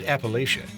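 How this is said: It is said the northern regional way. The speaker learned it in the north or is a geologist. "pronounced Appalachia in the northern parts of the mountain range"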